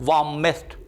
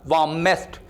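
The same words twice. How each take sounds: Both takes have the same delivery.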